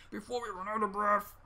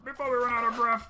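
First: Said in the usual way. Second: Faster and louder, urgent. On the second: Real, not acted. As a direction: rush it out, panicking. Urgent repeat.

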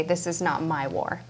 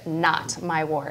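First: Said in the usual way. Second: "not my war" slowed, each word set apart; highlighted phrase. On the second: Shown as a demonstration. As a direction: lean on "not my war" slowly and deliberately. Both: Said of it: "is very highlighted".

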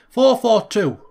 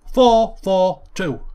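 First: Said in the usual way. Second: Slow, loud Yorkshire four four two; Yorkshire accent. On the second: Shown as a demonstration. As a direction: say it like a proud Yorkshireman. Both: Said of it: "in the Yorkshire accent".

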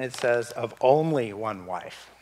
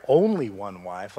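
First: Said in the usual way. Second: Only one wife, slowed with only held long and rising; stress on only. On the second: Shown as a demonstration. Preacher stressing scripture to congregation, slow emphatic only. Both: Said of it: "like he's emphasizing it".

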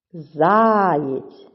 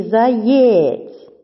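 First: "Заєць" with ЗА drawn out long; stress on first syllable. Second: "заєць" with ЄЦЬ loud and drawn out; stress on second syllable. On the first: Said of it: "наголошений перший склад". («Заєць» з протяжним наголосом на ЗА) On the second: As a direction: test "заєць" with stretched final syllable. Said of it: "Визначаємо наголос". («заєць» з протяжним наголосом на ЄЦЬ) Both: Shown as a demonstration.

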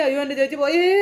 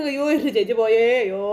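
First: Higher, hammed-up wail rising on പോയേ; fake crying. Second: Theatrical wail leaning on എൻ്റെ; fake crying. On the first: Uncle fake-wailing that sister is gone. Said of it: "ഭയങ്കര കരච്ചിൽ". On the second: Uncle repeating the fake wail for sister. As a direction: keep up the staged lament. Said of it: "ഭയങ്കര കരച്ചിൽ".

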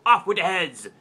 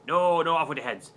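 First: Commanding shout, a touch louder; queen's command. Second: Said in the usual way. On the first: Acted. Queen orders heads off, a mock royal shout. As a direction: bark it out like a bossy queen. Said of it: "And the Queen says". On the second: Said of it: "and the girl says".

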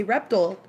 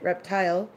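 First: "reptile" said REP-tull; weak final syllable in "reptile", REP-tull; REP-tull pronunciation. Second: "reptile" with a full long-i TILE; "reptile" said REP-TILE, rising at the end; own REP-tile pronunciation. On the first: Offering the friend's way first, "reptile" as REP-tull. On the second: Showing their own way, "reptile" as REP-tile. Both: Shown as a demonstration. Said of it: "which is how I pronounce it".

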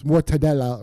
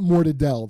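First: Proper Italian-style mortadella, all syllables; mortadella with full ending. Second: Italian-American mortadelle, last vowel gone; mortadella with dropped ending. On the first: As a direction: sound the final a in mortadella. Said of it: "it's not mortadelle". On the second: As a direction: clip the final a off mortadella. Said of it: "ignorant Italian Americans who talk like morons". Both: Shown as a demonstration.

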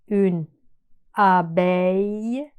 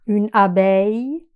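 First: Une abeille drawn out, abeille as a-bey; very slow model word. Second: Said in the usual way. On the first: Shown as a demonstration. Teacher slowing une abeille for students. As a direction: slowly stretch une abeille.

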